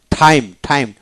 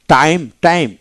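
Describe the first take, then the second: First: "টাইম" begun like ঠ, with a puff; aspirated T. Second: Said in the usual way. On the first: Shown as a demonstration. Teacher showing learners phonetic time, with aspirated T. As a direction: say "টাইম" with air bursting after the T. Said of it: "অনেকটা ঠ". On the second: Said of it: "এইভাবে".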